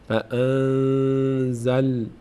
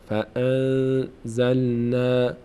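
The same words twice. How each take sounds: Both takes have the same delivery.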